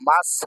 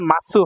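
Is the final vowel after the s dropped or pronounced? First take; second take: dropped; pronounced. First: The final u vowel is dropped after s. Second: The final u vowel is fully pronounced. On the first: The speaker calls it right. "মাস হয়" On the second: The speaker calls it wrong. "মাসু হয় না"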